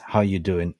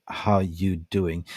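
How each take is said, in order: First: Said in the usual way. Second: Slow, stretched How you doing; drawn-out greeting. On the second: Shown as a demonstration. Host greets a viewer in the chat, slowly drawn out. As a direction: draw the greeting out lazily.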